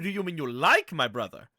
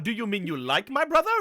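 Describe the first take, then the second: First: It is said in a teasing, suggestive way. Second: It is said in a plain, neutral way. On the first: The listener finds the brother attractive. "The second one was saying you find him attractive" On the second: The listener is fond of the brother. "The first like was saying that you like him"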